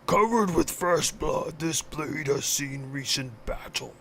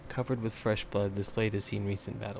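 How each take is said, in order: First: It is read in Kragnar's put-on voice. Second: It is read in his normal voice.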